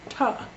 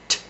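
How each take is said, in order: First: A vowel follows the consonant, making a syllable. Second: A short voiceless consonant with no vowel. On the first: The speaker calls it wrong. "that's not correct. Again, that's a syllable" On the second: The speaker calls it right. "Unvoiced and staccato"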